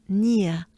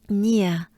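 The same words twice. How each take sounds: The two takes are said the same way.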